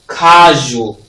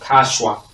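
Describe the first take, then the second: First: The middle consonant is a zh sound. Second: The middle consonant is not a zh sound. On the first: The speaker calls it right. "That's the sound" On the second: The speaker calls it wrong. "not casual"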